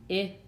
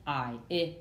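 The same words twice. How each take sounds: First: "I" said as a short "ih"; clipped vowel "ih" for the letter I. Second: "I" said as its name, "eye"; long vowel "eye" for the letter I. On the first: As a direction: give "I" the sound in slid. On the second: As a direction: give "I" the sound in slide. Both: Shown as a demonstration. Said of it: "You see the difference".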